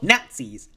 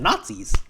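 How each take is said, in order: First: The first vowel sounds like the one in 'cat'. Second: The first vowel sounds like the one in 'father'.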